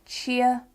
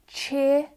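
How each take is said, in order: First: "cheer" as "chee-uh"; other pronunciation. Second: "cheer" with one long vowel; speaker's own accent. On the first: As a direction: glide "cheer" into two parts. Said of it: "could also sound like". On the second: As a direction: hold "cheer" without a glide. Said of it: "could also sound like cheer". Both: Shown as a demonstration.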